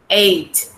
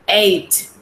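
Both takes have the same delivery.

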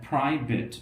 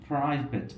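Both takes have the same delivery.

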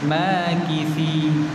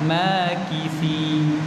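First: The middle consonant is a 'th' sound. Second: The same.

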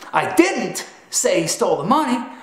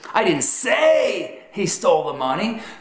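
First: The stress falls on the word 'didn't'. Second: The stress falls on the word 'say'. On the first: The speaker denies saying it. "simply proclaims that you didn't say it" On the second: The speaker implied it without saying it. "communicates that you communicated he stole the money in a manner other than verbal"

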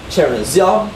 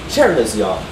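First: The main stress falls on the last syllable. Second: The main stress falls on the first syllable. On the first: "You can either have the secondary stress first and the primary stress later" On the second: "or the primary stress first and the secondary stress later"

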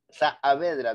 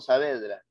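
First: The two a sounds are in separate syllables. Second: The two a sounds merge into one syllable. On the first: The speaker calls it right. "Dos vocales idénticas se pronuncian en sílabas diferentes. Por eso es que es Saavedra" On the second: The speaker calls it wrong. "no Saavedra"

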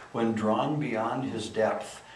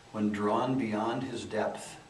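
The two takes are said the same way.

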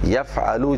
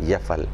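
First: The word ends with a short u vowel. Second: The word ends on the consonant l.

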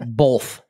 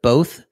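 First: The word is said with an added L sound. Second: The word is said without any L sound. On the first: "Because it put an L in it" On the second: "instead of both"

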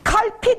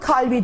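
First: The middle consonant is a hard p sound. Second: The middle consonant is a softened b sound. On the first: The speaker calls it wrong. "Kalpi diyemeyeceğim için" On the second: The speaker calls it right. "tak yumuşatıyorum, kalbi diyorum"

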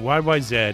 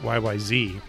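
First: The last letter is said zed, Canadian style. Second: The last letter is said zee, American style.

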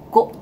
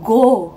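First: It is said with a faint k-like sound. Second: It is said plainly, with no k-like sound. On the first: The speaker calls it right. "Jadi kayak ada ka di belakang go" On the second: The speaker calls it wrong. "Bukan go"

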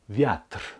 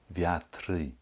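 First: The word ends cleanly on the r. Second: An extra y sound follows the final r. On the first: The speaker calls it right. "Die Endung schließt mit dem R ab" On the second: The speaker calls it wrong. "Ab und zu höre ich ein E oder ein Y"

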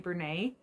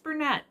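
First: The final T is silent. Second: The final T is pronounced. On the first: The name is treated as French. "I always think it's French, so I want to say Bernat" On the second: The name is treated as English. "But maybe it's Bernat"

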